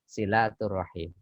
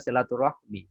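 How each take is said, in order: First: The word ends with the sounds 'him'. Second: The word ends with the sounds 'hmi'. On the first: This is the correct Arabic form. The speaker calls it right. "yang benar adalah silaturahim" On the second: This is the usual Indonesian form. The speaker calls it wrong. "di bahasa Indonesia sudah terbiasa silaturahmi"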